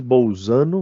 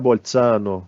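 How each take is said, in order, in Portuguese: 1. O z é um som de z simples e vibrado. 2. O z é um som ts, como em pizza. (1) "a gente está maltratando as línguas estrangeiras" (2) "alguma coisa com um Z com som de pizza"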